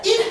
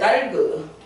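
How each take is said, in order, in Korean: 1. 받침 하나가 탈락해서 한 음절만 남아요. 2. 받침 두 개가 모두 모음이 붙어서 소리 나요. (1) "얘는 하나가 탈락이 되니까" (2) "일본 애들이 이렇게 다, 이렇게 막 달그. 뭐 이렇게 읽는단 말이야"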